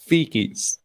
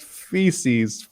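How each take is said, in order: First: The middle consonant is a k sound. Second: The middle consonant is an s sound.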